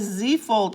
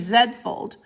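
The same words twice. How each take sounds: First: The letter is said the American way, zee. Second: The letter is said the Canadian way, zed.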